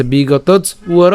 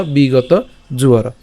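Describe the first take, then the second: First: "বিগতজ উয়র" slowly, j closing the first word; split pronunciation. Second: "বিগত জুয়র" slowly, j starting the second word; joined pronunciation. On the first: Teacher offers alternative "বিগতজ উয়র", slow split after j. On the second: Teacher offers "বিগত জুয়র" to learners, slow and linked. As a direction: link j into "জুয়র". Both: Shown as a demonstration. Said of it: "অথবা".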